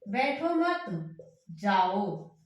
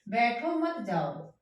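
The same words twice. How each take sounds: First: There is a pause after मत. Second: There is a pause after बैठो.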